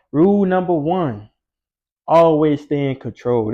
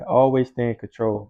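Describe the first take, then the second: First: Slow and louder, hammering the rule; emphatic rule. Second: Said in the usual way. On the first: Real, not acted. Telling viewers his rule, slow and emphatic. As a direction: lay down the law, slowly.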